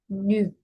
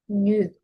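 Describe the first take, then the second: First: The vowel is a lip-rounded ee sound. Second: The vowel is a lip-rounded ee sound.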